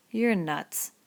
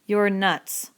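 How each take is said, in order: First: Said in the usual way. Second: Louder scornful "You're nuts.". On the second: A narrator's reading. Crooks mocking Lenny's dream, scornful. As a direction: dismiss him with contempt. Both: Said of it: "Crooks was scornful".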